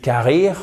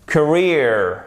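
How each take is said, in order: First: Carrière as evenly stressed ka-reer with French r; French-sounding mispronunciation. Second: Career as kuh-REER, second syllable stressed; correct English pronunciation. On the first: Teacher showing what listeners won't understand, French-sounding mispronunciation. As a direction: say carrière as a French learner's "career". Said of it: "si vous dites carrière". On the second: Teacher contrasting with the French-sounding mistake, correct English pronunciation. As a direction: model Career with a short ee and English r. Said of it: "faites d'abord bien l'accent tonique".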